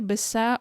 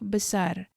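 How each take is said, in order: First: The second syllable ends in an o sound. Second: The second syllable ends in an ar sound. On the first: "with O ... in the second syllable" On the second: "instead of besar"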